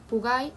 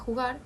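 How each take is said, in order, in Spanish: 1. La palabra se dice sin el sonido jota. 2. La palabra se dice con el sonido jota. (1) "aún no consigue pronunciar ni la ñ ni la jota" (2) "en vez de"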